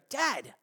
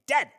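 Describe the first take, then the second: First: It sounds frustrated. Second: It sounds angry.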